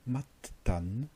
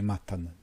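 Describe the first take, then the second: First: The middle t sound is held long, doubled. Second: The middle t sound is short and single. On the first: This is the older biblical pronunciation. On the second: This is the modern pronunciation.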